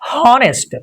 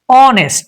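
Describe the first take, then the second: First: The word starts with an audible H sound. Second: The word starts with no H sound. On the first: The speaker calls it wrong. "it's not honest" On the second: The speaker calls it right. "It's honest, just honest"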